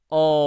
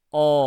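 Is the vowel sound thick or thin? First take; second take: thick; thick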